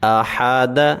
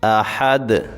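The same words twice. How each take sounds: First: The word is read in full with a final vowel. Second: The word stops on the final consonant. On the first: "मुकम्मल पढ़ेंगे" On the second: "इस पे रुकेंगे"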